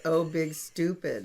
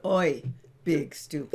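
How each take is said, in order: First: "Oh" said as a plain drawn-out oh, slowly; saying Oh. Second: "Oi" said as a cheeky Oi instead of oh; saying Oi. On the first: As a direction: pronounce "Oh" as an ordinary oh. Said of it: "because I called it". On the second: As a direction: swap the oh for a sharp "Oi". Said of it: "Or I could call it". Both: Shown as a demonstration.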